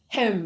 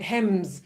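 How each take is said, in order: First: The name is said with a French-style sound. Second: The name is said with a plain English sound. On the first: The speaker wrongly assumes the name is French. "if they're wankers, hem, like they think it's um, you know French" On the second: This is how most people locally say it. "everyone in Australia, including media, seems to pronounce it"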